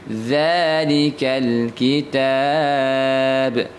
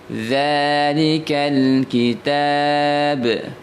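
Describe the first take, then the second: Both takes have the same delivery.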